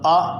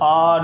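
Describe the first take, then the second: First: The vowel is short and stopped abruptly. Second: The vowel is drawn out long. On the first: The speaker calls it right. "बल्कि आवाज़ को उधर ही रोकेंगे।" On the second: The speaker calls it wrong. "इसको लंबा नहीं करेंगे। हमज़ा ज़बर आ नहीं पढ़ेंगे"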